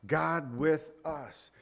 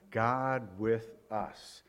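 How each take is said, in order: First: "with" carries the weight, slowly drawn out; stress on with. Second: "God" leading, low, soft and very slow; stress on God. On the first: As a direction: say "God with us" slowly, leaning on "with". Repeats the meaning, shifting the stress. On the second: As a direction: draw out each word of "God with us", weight on "God". Explains Emmanuel, repeats with shifted stress. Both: Shown as a demonstration.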